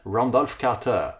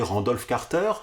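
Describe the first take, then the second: First: The name is said with an American accent. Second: The name is said with a French accent. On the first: "je l'ai prononcé le plus possible à l'américaine" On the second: "j'ai toujours prononcé Randolph Carter, sans trop me poser de questions"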